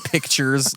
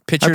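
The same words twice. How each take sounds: First: The k sound is clearly pronounced before t. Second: The k sound is dropped, like pitchers. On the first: "pictures like taking a picture" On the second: "pictures like a pitcher of water"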